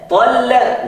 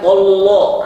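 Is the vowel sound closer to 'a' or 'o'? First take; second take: a; o. First: The vowels sound like a bright 'a'. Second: The vowels sound dark, like 'o'. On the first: The speaker calls it right. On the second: The speaker calls it wrong. "enggak boleh tollo"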